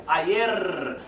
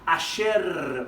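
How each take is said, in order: First: Said in the usual way. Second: "ayer" with a sh sound, a-SHER; slow "ayer", the y turned into sh; Argentinian pronunciation. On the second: Shown as a demonstration. Teacher demonstrates Argentinian variation, saying "ayer" as a-SHER. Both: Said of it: "o argentino vai pronunciar".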